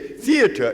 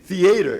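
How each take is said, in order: First: It is pronounced in a fancy, refined way. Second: It is pronounced in a plain, everyday way. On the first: The speaker is attending an expensive show. "if you pay fifty dollars a seat" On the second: The speaker is attending a cheap show. "if you pay two and a half a seat"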